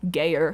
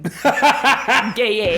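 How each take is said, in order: First: The name is said plainly, ending like 'Geyer'. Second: The name is said ending like 'gaying'. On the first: The speaker calls it wrong. "It's not just Geyer like Grant" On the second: The speaker calls it right. "It's like gaying"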